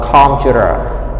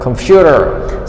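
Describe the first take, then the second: First: The stress is not on the second syllable. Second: The stress is on the second syllable. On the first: The speaker calls it wrong. "not computer" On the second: The speaker calls it right. "So the stress is on the second syllable"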